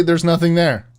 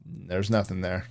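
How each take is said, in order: First: "there's nothing there" louder, pressed hard; emphatic insistence. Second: "There's nothing there" low and soft, dismissive; quiet flat denial. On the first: Insisting to her friend there are no ghosts, loud. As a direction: insist firmly, raising the voice. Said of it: "I'm literally". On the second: Brushing off the ghost claim, quiet and flat. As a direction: mutter it off to the side. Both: Real, not acted.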